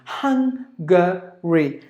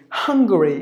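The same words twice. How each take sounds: First: "Hungary" slowly as HUNG, guh, ree; three separated beats for "Hungary"; syllable by syllable. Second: "Hungary" joined as HUNG-guh-ree; whole-word "Hungary", front-stressed; stress on first syllable. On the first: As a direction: pause between the syllables of "Hungary". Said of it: "So three syllable". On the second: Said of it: "give the stress for the first syllable". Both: Shown as a demonstration.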